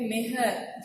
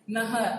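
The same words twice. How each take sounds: First: नेहर said slowly with 'e' first, 'ne-har'; wrong pronunciation. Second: नहर with short 'a' in both syllables, 'na-har'; correct pronunciation. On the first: Teacher quoting what people write by mistake, wrong pronunciation. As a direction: make the first vowel of नेहर a clear 'eh'. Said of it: "लोग इसको लिख देते हैं". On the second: Teacher giving the correct word after the mistake, correct pronunciation. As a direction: keep नहर's first vowel a short 'uh'. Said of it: "सही ये है". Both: Shown as a demonstration.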